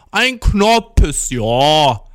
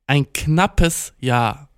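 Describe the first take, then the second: First: "knappes Jahr" stretched very slowly and loudly, vowels rounded toward "Knoppers, jo"; mock over-enunciation of "knappes Jahr" with dark, o-like vowels; drawn-out repeat. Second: "knappes Jahr" said very slowly with clear a vowels; slow realisation. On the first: Girl repeating her answer for the confused listener, exaggeratedly drawn out. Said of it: "Und sie dann so". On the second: Retold or imitated. Storyteller working out what the girl meant, slowly realising. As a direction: spell out "knappes Jahr" word by word as it dawns. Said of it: "dann war ich so".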